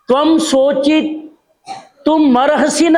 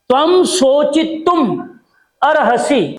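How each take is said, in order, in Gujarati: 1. m છેલ્લા શબ્દ સાથે જોડાય છે, સંભળાય છે 'marhasi'. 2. m પહેલાના શબ્દના અંતે છે, છેલ્લો શબ્દ 'arhasi' છે. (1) "ઘણા શું બોલે? મરહસી. મરહસી નથી" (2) "શુદ્ધ ઉચ્ચારણ કરવાનું"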